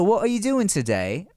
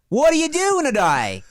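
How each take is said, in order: First: It is spoken in a posh British accent. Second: It is spoken in an Australian-sounding accent. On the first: "if you take a like, oh, oh, hello" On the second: "A Boston British accent is Australian"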